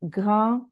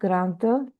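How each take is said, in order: First: The final d sound is silent. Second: The final d sound is pronounced. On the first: The speaker calls it right. "we say petit, vous, grand" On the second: The speaker calls it wrong. "not grande here"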